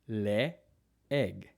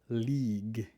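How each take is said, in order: First: The two vowels are said as separate syllables. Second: The two vowels merge into one long vowel. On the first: The speaker calls it right. "you pronounce both vowels separately" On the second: The speaker calls it wrong. "never league"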